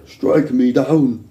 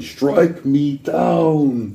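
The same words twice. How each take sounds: First: Slow, heavy mock Arnold growl; drawn-out action hero line; Arnold impression. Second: Slow, slipping toward a mock Arnold; nearly goes Arnold on it; a hint of an action hero threatening; half Arnold voice. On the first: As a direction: ham up the Arnold Schwarzenegger voice. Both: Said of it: "I almost went Arnold there".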